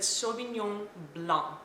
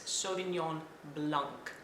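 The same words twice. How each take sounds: First: Blanc ends without a K sound. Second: Blanc ends with a clear K sound. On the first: "the French pronounce it Sauvignon Blanc. They actually leave out the K or the C at the end" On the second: "there's also an English way of pronouncing it ... So you can say a K at the end"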